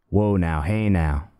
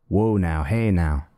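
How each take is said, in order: No difference in how they are said.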